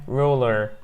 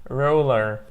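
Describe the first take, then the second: Both takes have the same delivery.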